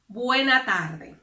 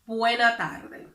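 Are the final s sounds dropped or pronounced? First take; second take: dropped; dropped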